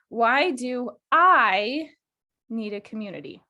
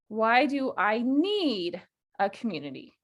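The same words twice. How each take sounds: First: The word need carries no special stress. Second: The word need carries strong stress.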